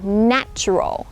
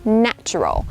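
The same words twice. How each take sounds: First: The first vowel is a short 'a' sound. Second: The first vowel is a short 'a' sound.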